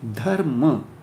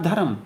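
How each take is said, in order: First: The r and m join: dhar-ma. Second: A vowel splits the r and m: dha-ram. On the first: The speaker calls it right. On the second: The speaker calls it wrong.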